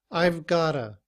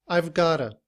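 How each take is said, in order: The two takes are said the same way.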